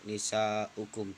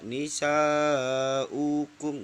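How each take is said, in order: First: The vowel after the glottal stop is kept short. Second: The vowel after the glottal stop is drawn out long. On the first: The speaker calls it right. "harus dibaca pendek" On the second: The speaker calls it wrong. "nggak boleh dibaca nisa'ukum, nggak boleh"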